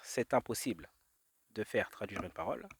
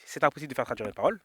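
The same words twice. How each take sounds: First: "c'est impossible" set apart, then "de faire traduire une parole"; phrase spelled out. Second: Said in the usual way. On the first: Shown as a demonstration. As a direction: lay out "c'est impossible" deliberately, pause before "de faire". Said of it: "parce que, regarde". (« c'est impossible » détaché, posément) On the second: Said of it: "Donc la phrase qui dit".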